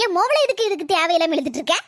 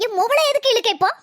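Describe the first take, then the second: First: Said in the usual way. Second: Angry demand. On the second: Acted. Mother-in-law defending her daughter, angry demand. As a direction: bark it back in defence.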